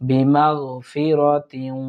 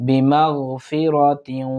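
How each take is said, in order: The two takes are said the same way.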